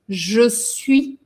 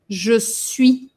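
First: The vowel of 'je' is fully pronounced. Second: The same.

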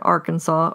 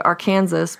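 First: The word ends in a 'saw' sound. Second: The word ends with a pronounced s sound.

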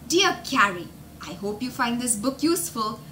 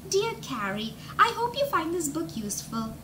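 First: It is read in the speaker's ordinary voice. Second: It is read in a put-on character voice.

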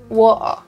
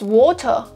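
First: Spoken in a London accent with the T dropped. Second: Spoken in an accent that sounds Australian. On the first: "the most stereotypical, I guess, London accent" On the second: "which might be Australian or not"

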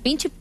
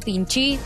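First: The word ends with an 'eh' vowel. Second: The word ends with an 'ee' vowel. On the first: The speaker calls it right. "Y es pinche" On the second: The speaker calls it wrong. "dijiste pinchi"

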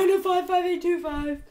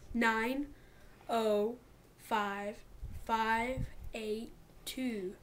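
First: The number is said at normal speed. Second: The number is said slowly.

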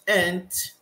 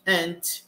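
No difference in how they are said.

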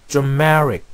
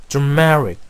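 The two takes are said the same way.

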